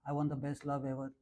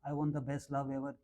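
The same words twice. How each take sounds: Both takes have the same delivery.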